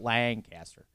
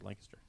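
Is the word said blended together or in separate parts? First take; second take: separate; blended. First: The syllables are said as separate parts. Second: The syllables are run together as one word. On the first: The speaker calls it wrong. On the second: The speaker calls it right. "Just put it all one word"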